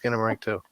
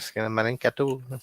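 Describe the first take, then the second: First: It is said in a plain, ordinary voice. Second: It is said in a put-on accent and cadence.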